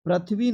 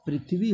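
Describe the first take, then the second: First: पृथ्वी said as "prathvi"; पृथ्वी with "pra", pitched up as the mistake; wrong pronunciation. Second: पृथ्वी said as "prithvi"; पृथ्वी with "pri", settled as the right form; correct pronunciation. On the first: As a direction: put an a in place of the ri in पृथ्वी. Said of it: "पृथ्वी नहीं होता है". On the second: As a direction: clear short i after the pr of पृथ्वी. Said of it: "पृथ्वी होता है". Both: Shown as a demonstration.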